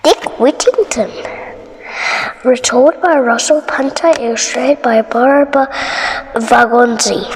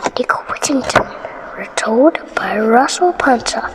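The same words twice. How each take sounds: First: Said in the usual way. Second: Whisper. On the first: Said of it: "title read twice, second whispered". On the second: Shown as a demonstration. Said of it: "title read again in whisper".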